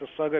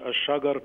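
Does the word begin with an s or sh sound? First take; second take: s; sh. First: The word begins with an s sound. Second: The word begins with an sh sound. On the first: The speaker calls it right. "الشجر بالسين ... زي ما بينطق الفلاحين" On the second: The speaker calls it wrong. "مش الشجر بالظبط"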